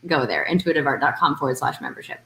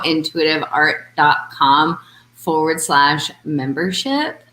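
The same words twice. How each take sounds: First: Fast, rattled-off web address; quick plug. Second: Slow, careful web address read; slow plug. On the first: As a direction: toss off the address quickly as a reminder. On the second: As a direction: spell out the address slowly for listeners. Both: Shown as a demonstration. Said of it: "So let's just plug right now".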